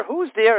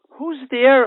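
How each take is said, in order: First: Higher, a bit louder nervous repeat; frightened mother repeating into the dark; scared voice. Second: High, louder frightened call; startled mother calling from upstairs, scared. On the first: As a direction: ask again, still afraid. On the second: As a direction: call out into the dark, afraid. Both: Acted. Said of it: "A scared voice".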